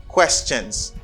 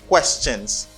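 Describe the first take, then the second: The two takes are said the same way.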